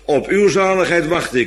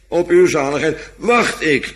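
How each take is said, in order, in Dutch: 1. Het woord 'wacht' krijgt geen speciale nadruk. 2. Het woord 'wacht' krijgt sterke nadruk. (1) "Even uit het hoofd zo" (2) "met de nadruk op wacht"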